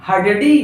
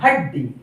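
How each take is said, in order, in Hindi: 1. आधा अक्षर एक पूरे अक्षर की तरह बोला जाता है। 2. आधा अक्षर अगले व्यंजन के साथ जुड़ जाता है। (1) "नहीं" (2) "बोलकर देखिए हड्डी"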